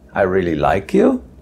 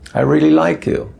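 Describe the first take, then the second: First: The voice sounds unsure and questioning. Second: The voice sounds sincere and straightforward. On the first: The speaker is not sure whether they like the person. "which is sort of a question" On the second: The speaker truly likes the person. "which means I really do like you"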